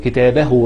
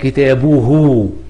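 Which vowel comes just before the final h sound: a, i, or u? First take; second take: a; u. First: The vowel before the final h is a. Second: The vowel before the final h is u. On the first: The noun is in the accusative case. "لو كتاب منصوبه هتبقى كتابه بالنطق كده" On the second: The noun is in the nominative case. "لو كلمة كتاب مرفوعة تبقى كتابه"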